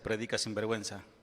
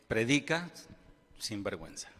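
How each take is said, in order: First: It runs together without a pause. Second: There is a pause before 'sin vergüenza'.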